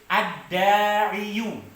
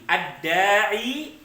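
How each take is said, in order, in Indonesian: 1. Kata ini berakhir dengan bunyi 'yoo'. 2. Kata ini berakhir dengan bunyi 'ee' biasa. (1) "Sulit ketika dibaca" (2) "tetap ya-nya dibaca apa? Dibaca mati"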